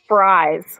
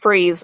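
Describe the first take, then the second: First: The vowel sounds like 'eye'. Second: The vowel sounds like 'ee'. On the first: This is how the spelling looks. The speaker calls it wrong. "it's spelled fries, like you eat" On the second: This is how the town is really called. The speaker calls it right. "it's pronounced freeze"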